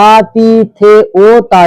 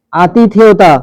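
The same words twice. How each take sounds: First: আতিথেয়তা slowly, every syllable stretched and separate; imitated syllable splitting. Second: Said in the usual way. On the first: Teacher showing a pupil how they said it, আতিথেয়তা in slow pieces. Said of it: "এরকম বলেছিস".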